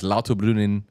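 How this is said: The name has a German-style pronunciation. This is how locals really say it. "because that's how you say it"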